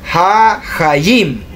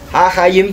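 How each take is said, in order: First: The word begins with an h sound. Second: The word begins with a vowel, no h. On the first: The speaker calls it wrong. "pero no es hahayim lo correcto" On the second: The speaker calls it right. "lo correcto es ahayim"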